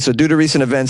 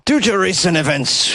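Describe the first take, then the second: First: It is said in the speaker's usual accent. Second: It is said in a put-on Scottish accent.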